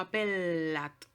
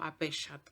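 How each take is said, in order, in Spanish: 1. La doble L es un sonido de l larga. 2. La doble L suena como una y. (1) "suena como L más L" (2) "No digo apellat"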